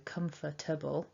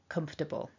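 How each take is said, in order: First: The word is said with four syllables. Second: The word is said quickly with three syllables. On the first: "here we're working with four" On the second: "when I'm speaking informally... it becomes three syllables"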